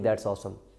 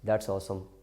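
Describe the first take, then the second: The two takes are said the same way.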